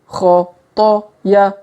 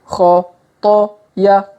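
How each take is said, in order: The two takes are said the same way.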